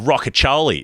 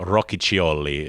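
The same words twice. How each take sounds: First: The name is said with Australian-style sounds. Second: The name is said with Italian-style sounds. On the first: "if you want to do it in, a, in an Australian" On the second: "the better way to do it"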